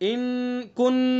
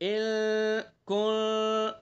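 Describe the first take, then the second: First: The n-sound comes fully and openly through the nose. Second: The n-sound is hidden and softened, partly nasal. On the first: The speaker calls it wrong. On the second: The speaker calls it right.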